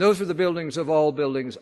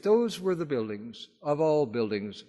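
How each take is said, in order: First: "those" hit louder, falling at the end; stress on those. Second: Said in the usual way. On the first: Shown as a demonstration. Lecturer restating his point to the audience, stressing "those". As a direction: lean hard on "those" to drive the point home. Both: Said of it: "I would argue".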